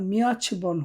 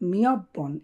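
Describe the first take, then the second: First: A ch sound joins the two syllables. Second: A doubled b sound joins the two syllables. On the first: The speaker calls it wrong. "উচ্চারণটা মিয়চবন হবে না" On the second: The speaker calls it right.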